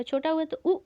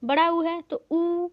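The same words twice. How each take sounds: First: उ clipped short, rounded lips; teacher says the short उ against the long one; short u demo. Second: ऊ held long, lips rounded, slower and a bit louder; teacher holds the long ऊ to show rounded lips; long oo demo. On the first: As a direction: say उ quick and short. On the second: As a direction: draw out the long vowel ऊ. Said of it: "जैसे ऊ बोलेंगे तो जो ओष्ठ है वो आगे की तरफ गोल हो जाएगा". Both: Shown as a demonstration.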